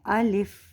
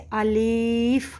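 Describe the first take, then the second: First: Both vowels are short and it ends in f. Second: The second vowel is drawn out long. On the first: The speaker calls it right. "इसकी सही अदायगी जो है वो है अलिफ" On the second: The speaker calls it wrong. "लाम के ज़ेर को इतना खींच देते हैं कि उसमें वो या ज़ाहिर हो जाता है"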